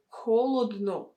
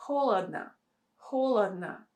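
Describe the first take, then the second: First: "холодно" said HO-lod-no; unnatural full O. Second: "Холодно" as HO-lad-na; natural vowel reduction. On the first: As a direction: say "холодно" with every O pronounced as O. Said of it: "We don't say". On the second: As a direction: say "Холодно" with only the first O kept, the others as A. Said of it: "it will sound really unnatural". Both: Shown as a demonstration.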